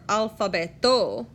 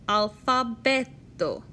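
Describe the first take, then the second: First: The stress is on another syllable. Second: The stress is on the next-to-last syllable. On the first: The speaker calls it wrong. "or alfabeto" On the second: The speaker calls it right. "the emphasis of a word always falls on the next to last syllable"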